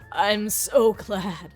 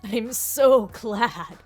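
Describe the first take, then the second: First: The voice is lower and raspy. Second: The voice is higher and smoother. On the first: The speaker calls it right. "lower my voice in a way, and then I just will have to rasp it a little" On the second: The speaker calls it wrong. "I need to lower my voice"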